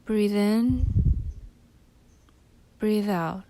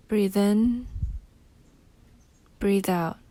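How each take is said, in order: Both takes have the same delivery.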